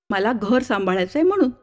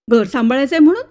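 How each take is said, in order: First: Said in the usual way. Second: Incredulous echo. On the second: Acted. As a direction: echo घर सांभाळायचंय म्हणून with a rise on म्हणून. Narrator echoes in disbelief.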